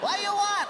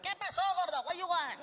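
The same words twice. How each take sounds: First: Loud, high mock shout; mean taco vendor. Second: High-pitched mock rude vendor; mean taco vendor. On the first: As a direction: yell impatiently at the customer. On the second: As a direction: snap at the customer in a put-on voice. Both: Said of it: "the guys were mean".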